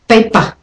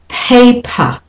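First: The p has no puff of air. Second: The p has a puff of air. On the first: The speaker calls it wrong. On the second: The speaker calls it right. "And aspirated"

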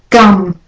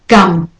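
Both takes have the same delivery.

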